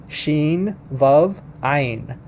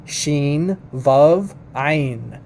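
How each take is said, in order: Both takes have the same delivery.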